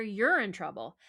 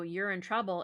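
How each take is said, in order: First: "you're" punched to turn it back on him; stress on YOU'RE. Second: Said in the usual way. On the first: Acted. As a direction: lean hard on "you're", then fall away. Wife throws husband's threat back.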